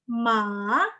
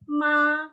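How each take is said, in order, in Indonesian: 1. Kata itu diucapkan dengan nada ketiga. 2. Kata itu diucapkan dengan nada pertama yang datar. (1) "tapi ton tiga" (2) "nada satu itu ma, ma, dia datar kan"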